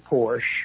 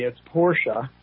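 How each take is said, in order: First: The name is said the American way. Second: The name is said the German way. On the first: The speaker calls it wrong. "We Americanize it and say Porsche" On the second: The speaker calls it right. "if you're in Germany, it's Porsche"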